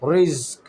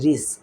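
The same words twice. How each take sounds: First: The r sound is full and heavy. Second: The r sound is thin and light. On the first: The speaker calls it wrong. "আমি কিন্তু বলতে চাই না যে রিস্ক রিস্ক রিস্ক" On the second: The speaker calls it right. "আমি হালকাভাবে বলতেছি যে রিস্ক"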